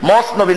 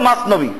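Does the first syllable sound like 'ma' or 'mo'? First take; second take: mo; ma. First: The first syllable is said with an 'o' vowel. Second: The first syllable is said with an 'a' vowel. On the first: The speaker calls it wrong. "নামটাও ভালো করে বলতে পারে না। ম কোনো শব্দ আছে নাকি?" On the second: The speaker calls it right. "শুদ্ধ হলো মাসনবী"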